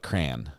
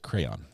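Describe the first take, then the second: First: It is said as one syllable, like 'cran'. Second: It is said as two syllables, 'cray-on'. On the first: The speaker calls it wrong. "It's not a crayon. That would be C R A N" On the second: The speaker calls it right. "It's a crayon"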